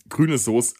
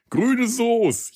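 First: Said in the usual way. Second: High delighted announcement; excited. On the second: Real, not acted. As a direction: proudly present the dish. Announces his first good Frankfurt experience.

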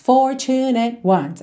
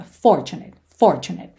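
First: Slow "Fortunate ones", equal weight on for, tu and nate; every syllable stressed. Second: "Fortunate" stressed on FOR, falling away after it; stress on first syllable. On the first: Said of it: "como se todas as sílabas fossem tônicas". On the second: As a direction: punch the opening syllable of "Fortunate", let the pitch drop. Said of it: "tem a sílaba tônica na primeira sílaba". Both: Shown as a demonstration.

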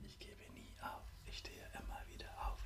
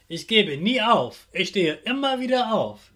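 First: Soft whispered repeat; whispered echo. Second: Said in the usual way. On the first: Shown as a demonstration. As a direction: whisper it back. Repeat-after-me affirmations.

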